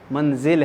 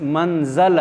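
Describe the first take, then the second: First: The second syllable has an 'i' vowel. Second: The second syllable has an 'a' vowel. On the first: The speaker calls it right. "जे के नीचे ज़ेर होगी" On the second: The speaker calls it wrong. "ये मंजिल है या मंज मंजल है"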